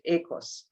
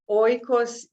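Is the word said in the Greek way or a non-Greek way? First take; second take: Greek; non-Greek. First: The word is said in the Greek way. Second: The word is said in a non-Greek way.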